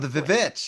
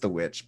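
First: The word starts with an extra 'vi' syllable. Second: The word is said plainly as one syllable. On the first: The speaker calls it wrong. "Is that how you say it?" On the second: The speaker calls it right. "No, it's just the Witch"

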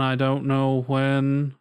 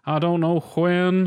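First: The word 'when' starts with a plain w sound. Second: The word 'when' starts with a breathy h sound. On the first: "you didn't go for the when there" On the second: "and he says the when"

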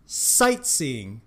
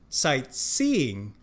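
First: The stress is on the first syllable. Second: The stress is on the second syllable. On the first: The speaker calls it right. "重音是在前面sight sightseeing" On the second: The speaker calls it wrong. "不是sightseeing"

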